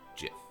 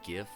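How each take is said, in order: First: The word begins with a soft J sound. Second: The word begins with a hard G sound. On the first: The speaker calls it right. "GIF, based on standard English rules" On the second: The speaker calls it wrong. "Anyone who calls it GIF is wrong"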